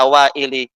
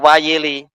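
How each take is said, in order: First: The first two vowels run together without a glide. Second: A y glide separates the first two vowels. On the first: "Terkadang dibaca Waili dan itu lebih senang di lidah kita" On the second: "Ini beberapa lahjah ya"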